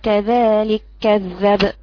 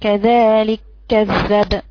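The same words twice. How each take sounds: No difference in how they are said.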